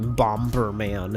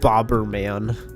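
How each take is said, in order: First: An m sound comes before the b. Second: No m sound comes before the b. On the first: The speaker calls it wrong. "I never ever ever say Bomberman. It just sounds weird" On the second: The speaker calls it right. "I grew up saying Bobberman because it just sounds better"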